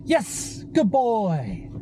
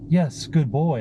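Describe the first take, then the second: First: It is said high-pitched and enthusiastically. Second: It is said in a flat, monotone voice. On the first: "these high-pitched, uh, more enthusiastic tones of voice" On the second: "I didn't say"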